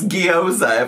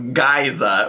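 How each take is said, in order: First: The first syllable sounds like 'gyo'. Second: The first syllable sounds like 'gay'. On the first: The speaker calls it right. "It's gyoza" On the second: The speaker calls it wrong. "which was geyza, which is not"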